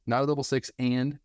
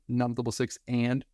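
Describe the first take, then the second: First: Said in the usual way. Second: Not punched, the rest of the phrase said lightly; stress on NOT. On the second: Shown as a demonstration. Teacher stressing not for the students, not punched. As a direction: lean hard on not. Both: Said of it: "stressing that word very importantly".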